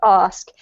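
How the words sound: It is said in a southern British accent. "These are pronounced the same by me"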